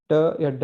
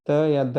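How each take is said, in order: First: Hard retroflex "ट या ड"; hard retroflex sounds. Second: Soft dental "त या द"; soft dental sounds. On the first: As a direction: say "ट या ड" with tongue curled back. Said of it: "ट या ड नहीं पढ़ना है". ("ट या ड" जीभ मोड़कर, मूर्धन्य ध्वनि में) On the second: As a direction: say "त या द" with tongue against the teeth. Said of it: "हम उसे त या द पढ़ेंगे". ("त या द" दाँतों से जीभ लगाकर, दंत्य ध्वनि में) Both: Shown as a demonstration.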